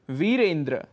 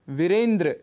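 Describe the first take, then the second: First: The first vowel is long. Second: The first vowel is short. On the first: The speaker calls it right. "शुद्ध उच्चारण है वीरेंद्र" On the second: The speaker calls it wrong. "वीरेंद्र कह देते हैं हम"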